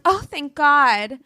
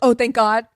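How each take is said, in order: First: It is said sincerely, with relief. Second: It is said sarcastically, with rolled eyes.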